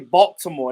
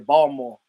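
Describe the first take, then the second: First: The t sound is clearly pronounced. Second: The t sound is left out. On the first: This is the standard way outsiders say it. "They don't say Baltimore" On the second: This is how locals say it. "They say Baltimore. ... ain't no T in that"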